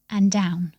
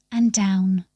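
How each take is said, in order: Both takes have the same delivery.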